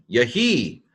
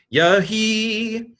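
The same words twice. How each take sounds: First: Said in the usual way. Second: Yahi sung out high and long; drawn-out high Yahi. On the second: Shown as a demonstration. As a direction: stretch Yahi up high, teaching it. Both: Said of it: "teacher repeats word differently".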